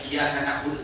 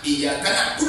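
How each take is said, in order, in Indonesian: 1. Bunyi y dibaca tunggal dan pendek. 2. Bunyi y dibaca dobel dan ditahan.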